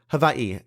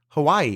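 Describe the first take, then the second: First: It is said the native Hawaiian way. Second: It is said the everyday English way.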